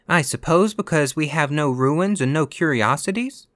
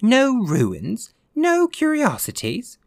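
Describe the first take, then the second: First: Higher-pitched, pointed satirical question. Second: Very high-pitched, stretched exclamation; incredulous echo. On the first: Virginia needling the ghost about America, satirical. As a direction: ask it with satirical bite, voice raised in pitch. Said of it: "said Virginia satirically". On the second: Ghost answering Virginia's remark on ruins, incredulous. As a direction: throw it back in high-pitched disbelief. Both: A narrator's reading.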